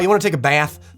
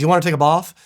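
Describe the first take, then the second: First: Bath has a flat American-style vowel. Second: Bath has a long posh British vowel. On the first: "that was even more Jersey than I meant to do" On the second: "let's sound like some weird sort of posh uh, R P accent"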